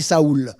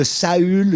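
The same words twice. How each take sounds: First: Saoul with an "oo" vowel, "sa-OOL"; Spanish-influenced Saül. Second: Said in the usual way. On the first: Shown as a demonstration. Preacher apologizing for his Spanish habit, Saoul pronounced "sa-OOL". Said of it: "Ça vient de l'espagnol". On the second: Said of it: "je m'excuse de ma prononciation".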